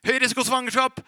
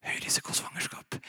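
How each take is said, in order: First: Booming doctor announcing the risk; higher and louder, a harsh doctor's voice. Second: The diagnosis shrunk to a whisper; faint whisper of the old fear; whispered doctor's voice. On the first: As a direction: blare it loud and high like a verdict. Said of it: "først var det en høy stemme, legestemmen". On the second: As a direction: whisper it, now powerless. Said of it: "til slutt så var det sånn". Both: Retold or imitated.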